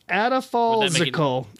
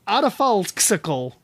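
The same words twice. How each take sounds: First: The x is said as a z sound. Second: The x is said as a ks sound.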